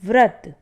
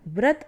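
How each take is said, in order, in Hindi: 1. यह शब्द v ध्वनि से शुरू होता है। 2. यह शब्द b ध्वनि से शुरू होता है। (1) "व व्रत है ना, यह शुद्ध शब्द है" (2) "व्रत अशुद्ध शब्द है"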